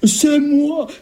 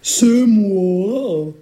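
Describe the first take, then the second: First: It is said in a lighter, softer voice. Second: It is said in a deep, gruff voice.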